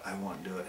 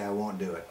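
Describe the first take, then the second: First: Softer muttered refusal, dropping away; muttered under breath. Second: Said in the usual way. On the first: Shown as a demonstration. Vlogger repeats his refusal to himself, muttered softly. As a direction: mumble it to yourself, much softer.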